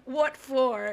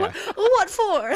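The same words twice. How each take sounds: First: Lightly drawled Southern what for; a hint of Southern drawl; playful Southern accent; mock Southern accent. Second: High, slow Southern drawl, much louder; over-the-top Southern accent. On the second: Retold or imitated. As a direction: stretch it out in a hammed Southern twang. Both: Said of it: "that was my Southern accent".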